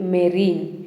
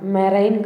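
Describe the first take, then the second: First: The second syllable sounds like 'reen'. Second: The second syllable sounds like 'rine'. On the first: The speaker calls it right. "మెరీన్ అని పలకాలి" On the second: The speaker calls it wrong. "మెరైన్ కాదండి"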